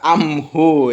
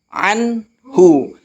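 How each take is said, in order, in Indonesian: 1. Bunyi n berubah menjadi m sebelum h. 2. Bunyi n dibaca jelas sebelum h. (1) "Jangan dibaca amhu ya" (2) "Dibacanya anhu"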